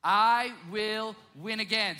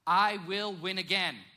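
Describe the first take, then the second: First: Slower, louder, drawn out; slow emphatic declaration. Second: Slow, each word weighted; slow emphatic declaration. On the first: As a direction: lead the crowd in saying it. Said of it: "I want you to say it with me". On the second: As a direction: declare it slowly. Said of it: "This is the statement". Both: Shown as a demonstration.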